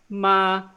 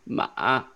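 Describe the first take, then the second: First: The pitch stays high and level throughout. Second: The pitch dips low, felt in the throat. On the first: "it's just a flat, high-pitched sound" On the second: "Third tone, more like guttural. You feel it in your throat"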